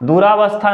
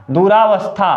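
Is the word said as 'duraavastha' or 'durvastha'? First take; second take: duraavastha; duraavastha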